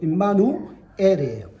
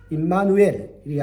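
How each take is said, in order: First: It is split into 임마누 and then 엘. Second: It runs together with no break before 엘. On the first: The speaker calls it right. "원래 임마누 그리고 엘입니다" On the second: The speaker calls it wrong. "임마누엘이 아니고"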